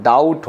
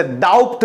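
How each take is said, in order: First: डाउट said as "dowt" with a silent b; correct pronunciation. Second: डाउट said as "dowpt" with the b sounded; wrong pronunciation. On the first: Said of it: "डाउट होता है". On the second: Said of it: "जैसे डाउट नहीं होता है". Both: Shown as a demonstration.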